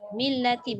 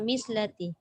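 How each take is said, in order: First: The middle consonant is a plain l sound. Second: The middle consonant is an s sound. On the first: The speaker calls it right. "Millati bukan mislati" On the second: The speaker calls it wrong. "bukan mislati"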